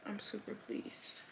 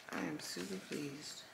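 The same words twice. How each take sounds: First: Whispered pleased. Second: Said in the usual way. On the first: Real, not acted.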